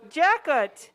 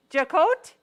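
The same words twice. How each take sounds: First: Jacot said as CHACK-ut, stress on the first syllable; first guess at the name. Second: Jacot as a questioning sha-KOH, stress on the end; second, unsure try at the name. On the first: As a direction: Jacot with a hard ch and a short, falling ut. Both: Real, not acted. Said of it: "I'm not sure how to say your last name".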